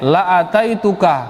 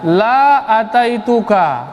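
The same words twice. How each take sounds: First: The vowel in the first word is short. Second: The vowel in the first word is long. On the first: I will surely come to you. "ini lam pendek ini" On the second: I will not come to you. "Kalau dibaca panjang"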